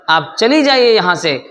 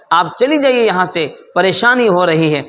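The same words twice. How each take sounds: First: Sharp, higher angry command; angry order. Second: Rushed, irritated repeat of the order; faster angry repeat. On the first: Brother angrily tells his sister to get out, raised voice. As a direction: snap at the sister to leave. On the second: Brother repeats his order to leave, quicker and annoyed. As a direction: fire it off quicker, losing patience. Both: A narrator's reading. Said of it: "وہ بھائی کو غصہ آ رہا ہے".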